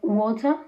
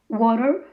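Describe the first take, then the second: First: The t is a crisp, clear t. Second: The t sounds like a quick r. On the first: "instead of" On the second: "the T as an R"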